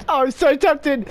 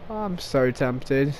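First: Bursting out, eager and giddy; excited temptation. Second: Low, slow, hushed to himself; quiet tempted murmur. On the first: Gamer to viewers, about to shoot teammates, eager outburst. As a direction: let the temptation spill over. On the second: Gamer to his viewers about shooting teammates, a low slow murmur. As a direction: keep it down, savouring the temptation. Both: Real, not acted.

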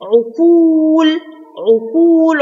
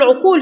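First: عقول with a long, held oo; long waw. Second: Said in the usual way. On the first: Shown as a demonstration. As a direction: stretch the second vowel of عقول slowly. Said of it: "عقول فيها مد واو". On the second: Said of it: "فيها مد واو".

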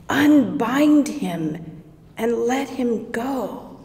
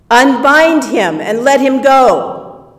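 First: Said in the usual way. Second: Loud, firm yelled order; "Unbind" called loudly to the men; yelled command. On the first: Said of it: "repeated to herself". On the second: Acted. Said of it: "yelled to the guys".

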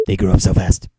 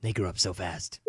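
First: Loud proud declaration. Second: Said in the usual way. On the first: Acted. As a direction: belt it out proudly. Repeated line, loud take.

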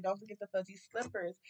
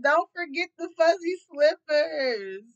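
First: Said in the usual way. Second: High, loud, drawn-out mocking quote; mock man's request. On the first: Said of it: "he like". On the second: Reading the man's card note, loud mocking voice. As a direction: ham up his request, slow and loud. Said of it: "This man said".

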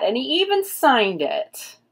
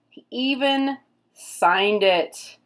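First: Quick, delighted and raised, stress on "even"; excited. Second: "even" drawn out and stressed, whole line slowed down. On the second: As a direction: savor it slowly, leaning on "even". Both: Real, not acted.

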